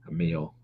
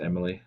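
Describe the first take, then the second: First: The name is said with two syllables. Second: The name is said with three syllables. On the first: The speaker calls it right. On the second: The speaker calls it wrong. "it is not pronounced Emily"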